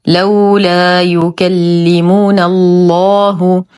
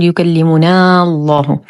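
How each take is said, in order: First: Slow recited "لولا يكلمنا الله", short "نا" joined into الله; correct dropped alif. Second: "يكلمنا الله" with a long ā kept before الله; wrongly lengthened vowel. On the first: Teacher gives learners the correct joining, recited "يكلمنا الله". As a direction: cut "نا" short straight into heavy "الله". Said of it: "الصواب". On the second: Teacher warns learners of the error, stretched "يكلمنا الله". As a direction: drag the "نا" before "الله" as a mistake. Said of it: "فلا نقول". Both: Shown as a demonstration.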